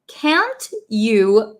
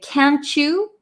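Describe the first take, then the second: First: The two words are said separately and clearly. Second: The words run together quickly like 'can'tcha'. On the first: "what I'm actually saying is" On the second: "when we talk really quickly, really Americanized, we say"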